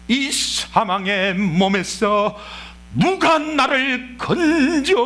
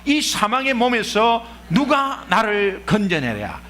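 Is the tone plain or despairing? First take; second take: despairing; plain. First: It is said in a despairing, anguished way. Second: It is read in a plain, flat way.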